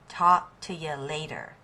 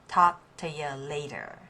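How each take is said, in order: No difference in how they are said.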